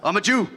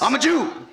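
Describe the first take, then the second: First: It is said plainly, without emphasis. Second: It is said with strong emphasis.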